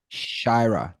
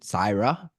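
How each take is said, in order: First: The name begins with a 'sh' sound. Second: The name begins with a plain 's' sound. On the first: The speaker calls it right. "S H. So it's Shira" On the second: The speaker calls it wrong. "Am I saying that right"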